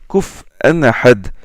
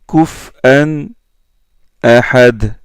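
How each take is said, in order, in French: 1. Les deux mots s'enchaînent sans coupure. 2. Une courte pause sépare les deux mots. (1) "comme Yaqub et Khalaf" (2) "il marque une pause"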